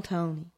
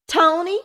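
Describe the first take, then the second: First: Much softer, gentle calling of Tony; soft reassuring name. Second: High, loud call of his name; scolding call. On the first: Mother soothing her upset son, soft. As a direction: say his name softly to soothe him. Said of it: "reassuring them both with a warm smile". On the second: Mother calling her son, scolding. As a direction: call the boy to order. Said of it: "Melissa Bannister scolded". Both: A narrator's reading.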